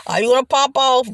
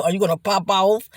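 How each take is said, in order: First: "pop" hit higher and louder, falling at the end; stress on pop. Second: Said in the usual way. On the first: Shown as a demonstration. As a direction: punch the word "pop" as a challenge.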